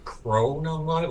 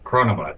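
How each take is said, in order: First: The name is pronounced in an awkward way. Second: The name flows smoothly off the tongue. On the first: The speaker calls it wrong. "it makes it awkward when you say it like that" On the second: The speaker calls it right. "It was it rolled off the tongue"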